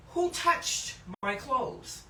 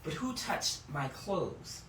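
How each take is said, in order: First: "Who" lifted and slowed, with a question rise; slow, weighted "Who touched my clothes?"; stress on WHO. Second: "who" stressed, falling tune, slow and soft. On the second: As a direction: lean on "who", drop the voice at the end. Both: Shown as a demonstration. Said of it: "Not even who touched me".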